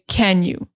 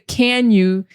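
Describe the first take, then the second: First: The vowel in can is weak and reduced. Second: The vowel in can is full and clear. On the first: The speaker calls it right. "But generally we say can you?" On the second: The speaker calls it wrong. "We don't say can you. We say unless we're emphasizing"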